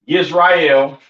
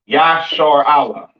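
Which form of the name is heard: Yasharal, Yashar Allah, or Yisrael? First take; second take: Yisrael; Yashar Allah. First: The name begins 'yis' and ends 'rael'. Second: The name ends in a separate 'Allah' sound. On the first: The speaker calls it wrong. "Not Yisrael" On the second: The speaker calls it right. "This is how you pronounce Israel in the ancient Hebrew"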